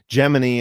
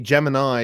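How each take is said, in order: First: It is pronounced the way the program was. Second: It is pronounced the way the star sign is. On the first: It names the space program. "Gemini is how uh, NASA and NASA personnel were told to pronounce the program" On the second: It names the astrological sign. "Gemini is the is the astrological sign"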